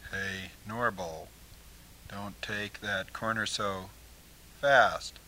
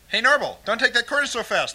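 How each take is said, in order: First: The line is said at a slower pace. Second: The line is said at a faster pace.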